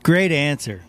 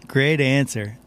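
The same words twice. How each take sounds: The two takes are said the same way.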